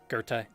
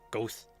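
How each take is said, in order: First: The name is said in its German form. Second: The name is said as one syllable, Goth. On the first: The speaker calls it right. "Goethe is pronounced like Goethe" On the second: The speaker calls it wrong. "or Goth"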